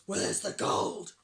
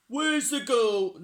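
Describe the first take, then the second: First: Gruff, hoarse pirate shout; Hank Chief. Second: Loud, raised, drawn-out shout; wrong character voice. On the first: Pirate chief demands his gold, gruff slow shout. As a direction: growl it slowly and loudly. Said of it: "shouted Hank Chief". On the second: Reader voices pirate chief wrongly, loud and high. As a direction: shout it slowly in a higher voice. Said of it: "No, that's the wrong voice". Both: A narrator's reading.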